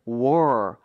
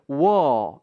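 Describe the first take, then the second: First: The word ends with an R sound. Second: The word ends on a plain vowel. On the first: "우리가 원하는 발음은 war, R 발음인데" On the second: "영국 발음은 끝에 있는 R 발음을 잘 발음을 안 해요"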